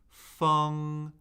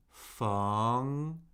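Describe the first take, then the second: First: The pitch stays high and level. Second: The pitch rises from mid to high.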